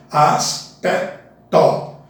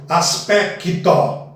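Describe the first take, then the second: First: Slow "Aspecto", the c almost silent; drawn out "Aspecto", skip the c; correct pronunciation. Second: "aspecto" with an added i, as-pe-ki-to; wrong pronunciation. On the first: Teacher showing students the right way, slowly. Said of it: "o C ... quase não é pronunciado". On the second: Teacher showing students the error to avoid. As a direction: sound an extra vowel after the c in "aspecto". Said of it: "não vamos pronunciá-lo como". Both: Shown as a demonstration.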